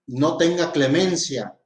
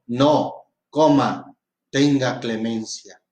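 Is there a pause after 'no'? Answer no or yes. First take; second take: no; yes. First: The words run together without a break. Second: A break follows the word no. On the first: Show no mercy. "no tenga ninguna piedad ni clemencia" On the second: Show mercy. "por una coma, le estoy diciendo que tenga clemencia"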